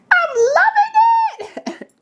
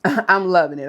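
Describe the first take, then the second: First: Very high, drawn-out squeal; gleeful squeal. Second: Said in the usual way. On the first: Pretend. Delighted squeal over her food.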